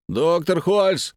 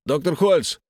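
First: Slow, drawn-out loud shout. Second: Loud call for the doctor. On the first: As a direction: yell it long through the door. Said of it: "кричал я". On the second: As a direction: call through the locked door. Locked in, calling doctor. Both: Acted.

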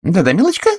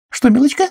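First: High, coaxing little coo; old lady coaxing a friend to go on; even more encouraging. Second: Put-on high, eager old-lady coo; cheery spinster asking sweetly; encouraging. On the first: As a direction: urge her on more warmly. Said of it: "ещё более ободряющим тоном". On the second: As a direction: gently spur her on. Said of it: "подбодрила её мисс Ганнет". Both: A narrator's reading.

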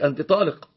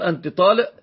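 First: طالق said taleq with a full qaf; standard qaf. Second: طالق said taleʔ, the qaf swapped for a glottal stop; qaf as hamza. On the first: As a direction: classical Arabic طالق with a proper qaf. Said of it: "يقصد بذلك". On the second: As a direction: end طالق on a glottal catch instead of the qaf. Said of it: "والشام أيضًا يقلبون القاف إلى همز". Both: Shown as a demonstration.

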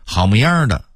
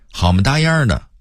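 First: Said in the usual way. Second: "模样"说成"么搭样"，音调高扬; 北京腔说"好么搭样的"; Beijing pronunciation. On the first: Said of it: "字面写成". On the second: Shown as a demonstration. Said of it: "老北京人会说成". (北京话变音说"好么搭样的")

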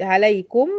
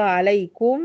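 First: عليكم with the mim voweled as alaikumu; joined form. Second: عليكم ending in a silent mim; عليكم said alaikum; original form. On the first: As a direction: give the mim of عليكم a damma. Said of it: "أصلها عليكم". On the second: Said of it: "أصلها". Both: Shown as a demonstration.

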